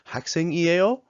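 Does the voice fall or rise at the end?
rises. The voice rises at the end.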